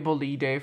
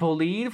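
First: The word is pronounced the Italian way. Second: The word is pronounced the English way.

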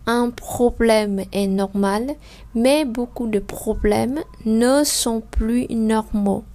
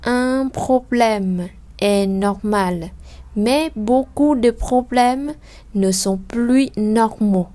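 First: The sentence is read at a quicker, flowing pace. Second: The sentence is read at a noticeably slower pace. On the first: "mình không thể nào đọc chậm được" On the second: "bây giờ chúng ta đọc chậm lại hơn một chút"

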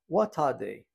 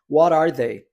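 First: It has a British accent with a clear T. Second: It has an American accent with a flapped T.

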